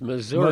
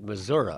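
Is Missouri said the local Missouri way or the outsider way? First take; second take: outsider; local. First: It is said the way people elsewhere say it. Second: It is said the way Missouri locals say it.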